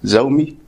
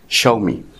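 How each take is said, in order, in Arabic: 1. يبدأ الاسم بصوت z، zoo. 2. يبدأ الاسم بصوت sh، sha. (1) "مش زومي" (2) "وهي في الواقع اسمها شاومي"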